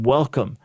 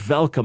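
First: The first sound is a clear W. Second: The first sound is not a clear W. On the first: The speaker calls it right. "I'm saying welcome" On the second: The speaker calls it wrong. "No, you said welcome"

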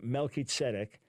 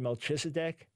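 First: The name is pronounced with Hebrew sounds. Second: The name is pronounced with English sounds. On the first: "In Hebrew" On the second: "In English, people say"

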